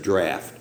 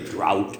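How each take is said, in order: First: The vowel sounds like the one in 'laugh'. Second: The vowel sounds like the one in 'out'. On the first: The speaker calls it right. "the word there is draft" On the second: The speaker calls it wrong. "I hear people drought and everything else are trying to say it"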